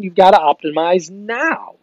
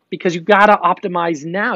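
First: "gotta" stretched out, slow and high, falling at the end; "gotta optimize now" said slowly with weight; slow emphatic. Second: Said in the usual way. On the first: Shown as a demonstration. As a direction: lean hard on "gotta" and drag the line.

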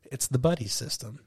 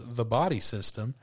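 First: Said in the usual way. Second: "body" said as written, a puzzled repeat with a rise; doubtful "body system"; quizzical repeat. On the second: Retold or imitated. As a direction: echo "The body system?" back as a question. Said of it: "And she says".

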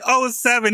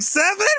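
First: Said in the usual way. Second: Very high, rising "seven?"; stunned disbelief, pitch shooting up; incredulous scammer. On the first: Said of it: "he didn't say, like". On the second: Retold or imitated. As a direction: blurt it as a shocked question. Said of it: "He was just like".

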